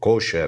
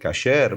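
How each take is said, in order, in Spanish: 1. La primera vocal es un sonido 'o'. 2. La primera vocal es un sonido 'a' abierto.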